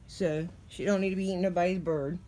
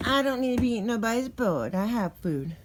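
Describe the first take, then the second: First: Said in the usual way. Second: Louder, higher cat's-voice reply; voicing the cat.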